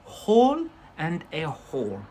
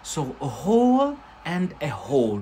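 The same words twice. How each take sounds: First: "Hole and a hole", both /hol/, raised; both "hole" with the same long o; same pronunciation again. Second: "hole" and "hole" said alike, /hol/ and /hoʊl/; "a hole and a hole", identical long o; same pronunciation. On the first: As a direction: repeat "Hole and a hole", matching sounds. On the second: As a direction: say "hole" twice the same way to show they match. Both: Shown as a demonstration. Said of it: "same pronunciation".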